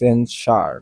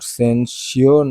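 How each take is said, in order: First: The ending sounds like 'sar'. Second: The ending sounds like 'syoor'. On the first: The speaker calls it right. "সার বা এইভাবে উচ্চারণ হয়" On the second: The speaker calls it wrong. "সেন্সিওর না"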